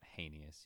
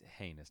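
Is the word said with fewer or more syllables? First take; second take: more; fewer. First: The word is said with an extra syllable. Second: The word is said without an extra syllable. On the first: The speaker calls it wrong. "not heinous, you freak. There's not an extra syllable in there" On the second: The speaker calls it right. "It's heinous"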